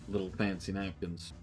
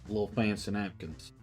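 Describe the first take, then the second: The two takes are said the same way.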